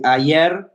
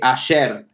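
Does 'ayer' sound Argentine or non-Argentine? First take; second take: non-Argentine; Argentine. First: It is said in a non-Argentine way. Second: It is said in an Argentine way. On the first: "instead of saying for yesterday" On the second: "an Argentinian accent uh, with the double L or the Y"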